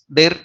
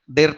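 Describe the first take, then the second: No difference in how they are said.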